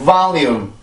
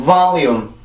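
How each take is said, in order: The two takes are said the same way.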